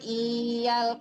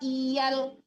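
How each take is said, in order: First: The first vowel is held long. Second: The first vowel is short, not held. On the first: The speaker calls it wrong. "Kalau iyal panjang itu namanya" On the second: The speaker calls it right. "I-nya jangan ditahan"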